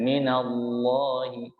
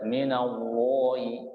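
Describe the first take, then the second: First: "minallahi" slower and a little fuller on the heavy l; slow "minallahi" against the first; second take. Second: "minallahi" said at normal pace as the first version; plain "minallahi" to compare; first take. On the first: Teacher gives the contrasting "minallahi" and asks the class. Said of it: "beda ya?". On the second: Teacher reads "minallahi" once to set up a contrast. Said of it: "Beda kalau saya baca minallahi". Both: Shown as a demonstration.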